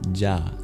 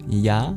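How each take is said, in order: First: The syllable begins with a short stop burst. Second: The syllable begins with a smooth y glide. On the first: "pronounced like a palatal plosive" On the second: "pronounced like a palatal semivowel"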